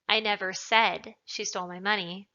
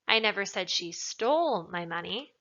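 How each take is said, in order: First: The word said carries the stress. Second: The word stole carries the stress. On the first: It was implied but not said. "means that perhaps I implied it, but I didn't say it" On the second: It was taken but not stolen. "implies that maybe she took it, but she didn't steal it necessarily"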